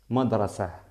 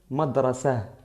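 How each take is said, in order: The two takes are said the same way.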